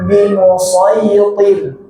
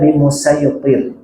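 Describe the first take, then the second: First: The s sound is the heavy emphatic one. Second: The s sound is the light plain one.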